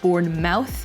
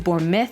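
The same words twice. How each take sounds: First: The ending sounds like 'mouth'. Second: The ending sounds like 'myth'. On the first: The speaker calls it wrong. "it's never pronounced mouth" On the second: The speaker calls it right. "it's pronounced myth"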